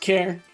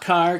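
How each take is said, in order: First: It rhymes with air, starting with a k sound. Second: It starts with a k sound, rhyming with far. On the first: The speaker calls it right. "It's pronounced care" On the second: The speaker calls it wrong. "not car"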